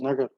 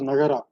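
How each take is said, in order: First: It ends on the r with no final vowel. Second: It ends with an extra vowel after the r. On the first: The speaker calls it right. "You read it as nagar" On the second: The speaker calls it wrong. "You don't read it as nagara"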